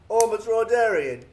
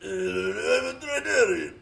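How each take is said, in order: First: It is said in a British accent. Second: It is said in an imitation of Watto's voice.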